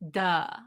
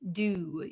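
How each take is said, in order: First: The vowel is a relaxed, open uh sound. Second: The vowel is a full rounded oo sound. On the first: "it becomes just a drop. Our jaw just drops down" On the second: "the oo sound, we need a lot of um, stress around our lips"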